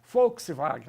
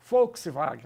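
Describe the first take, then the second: First: The word is said the German way. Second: The word is said the German way.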